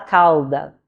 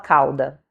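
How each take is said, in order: First: The L sound is clearly pronounced. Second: The L sounds like a U vowel. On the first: "o português vai falar cauda" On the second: "o brasileiro fala cauda, da mesma forma que fala o cauda com U"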